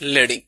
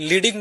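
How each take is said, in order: First: The first vowel is a short 'e' sound. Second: The first vowel is a long 'ee' sound. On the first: This is the typography term for line spacing. "এই specific একটা জায়গায় এসে বলা হয়, শব্দটার উচ্চারণ হয় লেডিং" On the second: This is the word's usual sense. "ওটাকে লিডিং বলা হয়"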